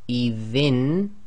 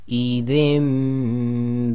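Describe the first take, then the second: First: The final consonant is a clear n sound. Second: The final consonant becomes a nasal m sound. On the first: The speaker calls it wrong. "instead of saying" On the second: The speaker calls it right. "we have to say"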